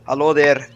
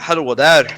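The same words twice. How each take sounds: First: It is said without a Swedish accent. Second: It is said in a Swedish accent.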